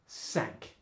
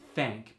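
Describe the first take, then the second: First: The word begins with an s sound. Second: The word begins with a voiceless th sound.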